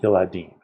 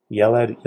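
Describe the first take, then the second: First: Yeladim with stress on the final DIM; yeladim contrasted. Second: Yeled said slowly, stress on the first syllable YE; Yeled, set clearly against its plural; yeled contrasted. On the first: Teacher contrasting singular and plural, yeladim stressed on the end. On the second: Teacher contrasting singular and plural, yeled with first-syllable stress. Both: Shown as a demonstration. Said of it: "Yeled, yeladim".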